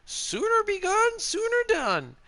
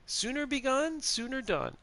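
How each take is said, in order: First: High, drawn-out woman's line; quoting game character. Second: Higher, lightly voiced woman's line; quoting game character. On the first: Acted. Streamer quizzing viewers on a Skyrim woman's quote, high character voice. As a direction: quote her slowly in a raised put-on voice. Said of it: "Which character goes". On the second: Streamer repeating the quiz quote for viewers, lightly put-on woman's voice. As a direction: repeat her motto in a lifted voice. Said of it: "it is a woman".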